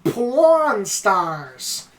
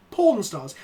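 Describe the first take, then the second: First: "Porn stars" with a short flat "pon" vowel; American "Porn", almost "pahn"; American pronunciation. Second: "Porn stars" with a long open British "porn", no r; British "Porn", r left out; British pronunciation. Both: Shown as a demonstration. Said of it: "how do you pronounce it".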